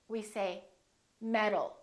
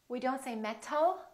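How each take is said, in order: First: The middle consonant is a quick D-like tap. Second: The middle consonant is a crisp T. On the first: The speaker calls it right. "we say" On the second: The speaker calls it wrong. "We don't say"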